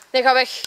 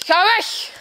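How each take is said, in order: First: Low, firm plea to leave; tense warning. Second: Higher, sharper order to leave; urgent outcry. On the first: Victim sending attacker away, contained tense warning. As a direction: keep it contained, warding someone off. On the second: Victim sending attacker away, urgent higher cry. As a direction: raise the pitch and push them away. Acted warning off attacker, escalating. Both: Acted.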